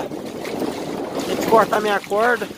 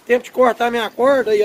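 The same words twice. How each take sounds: First: Stretched out slowly, exasperated; slow drawn-out complaint. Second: Said in the usual way. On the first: Real, not acted. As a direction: drag each word out in disbelief. Repeats complaint about tangled rope. (reclamando devagar, arrastando as palavras)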